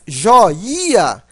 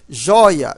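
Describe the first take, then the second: First: The i is said as a strong, full vowel. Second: The i is said weakly, gliding into the vowel. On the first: The speaker calls it wrong. "o som seria forte" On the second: The speaker calls it right. "mas o som é fraco"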